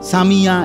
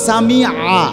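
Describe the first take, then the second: First: It has a y sound after 'sami'. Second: It has a throaty ain sound after 'sami'. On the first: The speaker calls it wrong. "এটা তো ইয়া" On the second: The speaker calls it right. "শব্দটা হলো সামি আ আইন"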